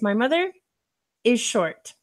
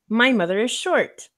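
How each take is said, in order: First: There is a pause after "my mother". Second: The sentence flows without a pause. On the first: The speaker calls it wrong. "the incorrect way is" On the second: The speaker calls it right. "The correct way would be"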